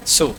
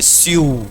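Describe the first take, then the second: First: Said in the usual way. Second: Sue with a y-glide, "syoo". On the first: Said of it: "generally क्या बोलते हैं उसको". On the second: Shown as a demonstration. Teacher shows students the expected pronunciation, sue as "syoo". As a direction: say sue like "syoo", as the spelling suggests. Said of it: "आपके हिसाब से मुझे उसको pronounce करना चाहिए".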